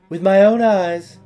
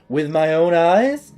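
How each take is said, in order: First: It is said as a statement, falling. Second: It is said as a question, rising.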